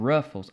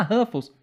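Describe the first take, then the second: First: "Ruffles" com R retroflexo inglês; R americano. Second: "Ruffles" com som de H, "Râfous"; R brasileiro. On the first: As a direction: enrole o R inicial de "Ruffles". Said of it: "são fonemas completamente diferentes". ("Ruffles" à americana, sem som de H) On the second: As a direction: diga "Ruffles" com R aspirado. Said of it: "Se você falar Ruffles". ("Ruffles" abrasileirado, R soprado) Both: Shown as a demonstration.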